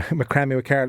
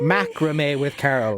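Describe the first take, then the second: First: "macrame" said muh-KRAM-ee; mispronounced macrame. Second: "Macrame" said MACK-ruh-may, drawn out slowly; corrected macrame. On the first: Real, not acted. Host naming Carol's business, "macrame" mispronounced muh-KRAM-ee. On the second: Shown as a demonstration. Host trying out the corrected name, "Macrame" as slow MACK-ruh-may. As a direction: hit the first syllable of "Macrame", ending in "may". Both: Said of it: "We had it wrong".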